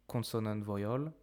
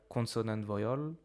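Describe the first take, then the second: Both takes have the same delivery.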